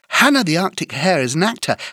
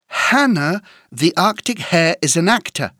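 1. La phrase est dite à un rythme très rapide. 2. La phrase est dite à un rythme rapide. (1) "Encore plus vite" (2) "plus vite"

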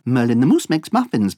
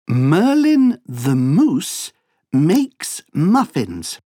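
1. La phrase est dite à un rythme très rapide. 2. La phrase est dite à un rythme normal. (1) "Encore plus vite" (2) "Écoute bien cette phrase"

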